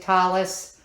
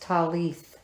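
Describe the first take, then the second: First: The word ends with an s sound. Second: The word ends with a th sound. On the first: This is how it was said in earlier times. "Back in the day, they pronounced it talis" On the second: This follows how it is written down. "they have it written down as talith"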